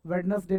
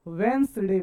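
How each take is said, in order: First: वेडनेसडे spelt out as "wed-nes-day"; mispronunciation. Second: वेंसडे in two syllables, "wens-day"; correct pronunciation. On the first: Teacher rejecting students' form, वेडनेसडे as "wed-nes-day". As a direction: give वेडनेसडे its d and three syllables. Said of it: "नहीं बोलने का". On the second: Teacher correcting students, वेंसडे as "wens-day". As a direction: say वेंसडे with the first d silent. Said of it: "बोलने का". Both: Shown as a demonstration.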